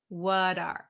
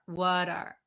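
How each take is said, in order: Both takes have the same delivery.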